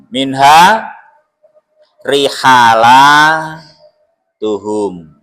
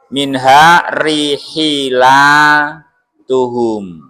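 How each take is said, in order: First: An a vowel is said after the h. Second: An i vowel is said after the h.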